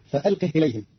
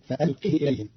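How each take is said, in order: First: Said in the usual way. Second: فألقه said "fa-alqihi", last i short; فألقه with short, unlengthened "hi"; short kasra on ha. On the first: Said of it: "قرأ قالون كلمة فألقه". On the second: Shown as a demonstration. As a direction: end فألقه on brief "hi", not a closed h. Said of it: "بكسر الهاء بدون صلة".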